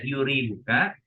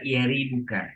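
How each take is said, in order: First: The first vowel is a 'u' sound. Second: The first vowel is an 'a' sound. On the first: "Yurwa bi fatilya wa damuha" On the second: "membacanya fathah ... lebih afsah, lebih fasih dan lebih masyhur"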